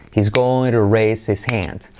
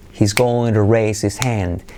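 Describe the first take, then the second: Both takes have the same delivery.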